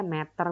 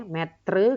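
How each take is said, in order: First: Said in the usual way. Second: METRE drawn out, ending in -tre as spelt; British spelling pronounced. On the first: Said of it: "kalau American dia meter biasa". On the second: Shown as a demonstration. Teacher contrasts British spelling, metre sounded as -tre. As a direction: say METRE as "met-truh", R before the final vowel. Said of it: "metre kalau British".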